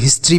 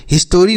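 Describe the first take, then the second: First: हिस्ट्री with the middle vowel dropped, s-t-r run together; correct pronunciation. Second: हिस्टोरी with a full o sound in the middle; wrong pronunciation. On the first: Teacher giving students the right way to say हिस्ट्री. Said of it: "हिस्ट्री पढ़ते हैं". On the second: Teacher showing students the wrong way to say हिस्टोरी. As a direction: say हिस्टोरी, vowel drawn in. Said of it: "हिस्टोरी नहीं पढ़ते हैं". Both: Shown as a demonstration.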